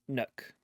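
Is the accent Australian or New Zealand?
New Zealand. It is said in a New Zealand accent. "nook being uh, a New Zealander"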